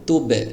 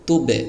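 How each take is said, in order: No difference in how they are said.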